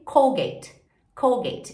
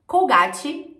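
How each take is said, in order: First: "Colgate" as "COHL-gate"; falling English "Colgate"; English pronunciation. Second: "Colgate" as "cou-GÁ-tchi", louder and higher; rising Brazilian "Colgate"; Brazilian pronunciation. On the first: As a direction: silent E in "Colgate". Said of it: "esse E não é pronunciado". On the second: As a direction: say "Colgate" with Portuguese A and final I. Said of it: "termina em E". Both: Shown as a demonstration.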